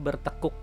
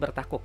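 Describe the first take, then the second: First: The second syllable has a weak 'e' vowel. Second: The second syllable has an 'a' vowel. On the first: This is how people usually say it. "pengucapan kita biasanya bertekuk" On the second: This is how the word is written. "Tulisannya bertakuk"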